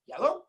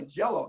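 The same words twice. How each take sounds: First: High-pitched questioning echo, imitating surprise; surprised echo. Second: Said in the usual way. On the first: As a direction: repeat it as a mock-astonished question. Acts engineers' reaction to colour.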